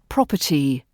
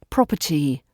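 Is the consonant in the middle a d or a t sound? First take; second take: t sound; t sound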